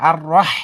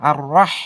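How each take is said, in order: Both takes have the same delivery.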